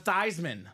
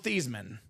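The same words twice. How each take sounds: First: The first syllable rhymes with Heisman. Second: The first syllable does not rhyme with Heisman. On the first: This is the name as later changed. "let's change the pronunciation of your name to Theismann. Theismann for the Heisman" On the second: This is the name as originally said. "they all knew him as Joe Theismann"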